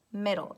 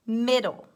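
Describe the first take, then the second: First: Said in the usual way. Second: Mid·dle said slowly and clearly; slow word read. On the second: Shown as a demonstration. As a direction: say "middle" stressing mid, falling.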